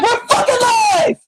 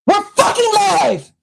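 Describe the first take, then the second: First: Slow, high shout of "live" with a laugh; exasperated laughing shout. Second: Said in the usual way. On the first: Real, not acted. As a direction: bellow it out, half laughing. Mocking the mic being live.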